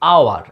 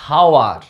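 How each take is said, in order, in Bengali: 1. শব্দটি সরাসরি একটি স্বরধ্বনি দিয়ে শুরু হয়। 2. শব্দটি একটি শোনা যায় এমন 'h' ধ্বনি দিয়ে শুরু হয়। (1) "এর উচ্চারণটা হচ্ছে আওয়ার" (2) "অ্যাকচুয়ালি হওয়া উচিত হাওয়ার, নো"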